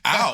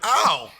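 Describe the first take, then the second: First: It sounds only mildly annoyed. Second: It sounds clearly more annoyed.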